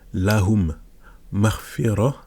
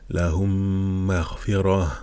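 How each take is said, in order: First: The two m sounds are said separately and plainly. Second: The m sounds merge and are held with nasalization. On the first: "normalement on dirait lahum marfira, vous voyez en deux mots" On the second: "avec la règle on va lire"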